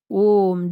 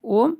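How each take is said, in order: First: Said in the usual way. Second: ओम with the vowel held long, three beats; drawn-out Om. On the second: Shown as a demonstration. Teacher showing students a three-beat ओम. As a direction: stretch ओम out like a chant. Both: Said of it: "फिर ऐसे होता है ओम".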